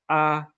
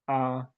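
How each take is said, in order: First: The pitch stays high and level. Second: The pitch stays low and level. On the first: "We have the high flat" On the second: "the low flat tone"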